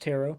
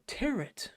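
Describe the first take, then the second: First: The final T sound is silent. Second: The final T sound is pronounced. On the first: The speaker calls it right. "it's pronounced Tarot. The T is silent" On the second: The speaker calls it wrong. "as the one character pronounced it"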